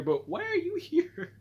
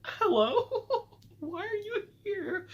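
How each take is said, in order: First: Much higher and slow, stunned question; squeaky disbelief. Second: Much higher, squeaky, laughing disbelief; shocked squeal. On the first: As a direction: stretch it out in high-pitched disbelief. Repeats shocked question. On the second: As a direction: squeal it out like you can't believe your eyes. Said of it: "I said". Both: Retold or imitated.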